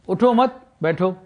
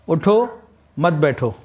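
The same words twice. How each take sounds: First: The pause falls after 'mat', before 'baitho'. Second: The pause falls before 'mat', after 'utho'.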